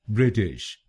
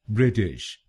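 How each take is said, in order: The two takes are said the same way.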